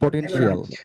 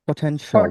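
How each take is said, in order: First: The ending is said as a full "shial". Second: The ending is said as a short "shal". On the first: The speaker calls it wrong. "আপনারা যেভাবে উচ্চারণ করেন যে পোটেনশিয়াল" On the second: The speaker calls it right. "এটাকে কিভাবে আমরা বলবো?"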